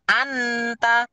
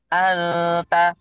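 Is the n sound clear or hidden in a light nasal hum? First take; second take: clear; hidden. First: The n is pronounced fully and clearly. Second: The n is hidden in a short, light nasal hum. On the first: The speaker calls it wrong. "Salah kalau ibu bacanya terlalu jelas nunnya" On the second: The speaker calls it right. "Ada dengungnya tapi dengungnya tuh nggak keeng gitu loh"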